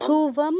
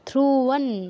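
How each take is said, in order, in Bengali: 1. শব্দটি বদ্ধ ম ধ্বনিতে শেষ হয়। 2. শব্দটি অনুনাসিক ন ধ্বনিতে শেষ হয়। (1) "ধ্রুবম নয়" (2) "প্লাস নাকের প্রয়োগ করতে হবে, নাক লাগাতে হবে"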